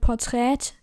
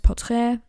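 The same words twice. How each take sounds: First: The word is pronounced in a German way. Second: The word is pronounced in a French way. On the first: The speaker calls it wrong. "you don't say in German Portrait" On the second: The speaker calls it right. "you say portrait because this derives from French"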